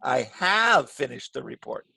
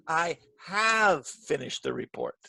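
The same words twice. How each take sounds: First: "have" longer and louder; emphatic "have"; stress on have. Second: "have" stretched and pushed, slow; emphatic "have"; stress on have. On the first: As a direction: draw out "have" to insist. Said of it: "I make it longer and louder". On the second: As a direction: correct them by leaning on "have". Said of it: "the have part very loudly". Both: Shown as a demonstration.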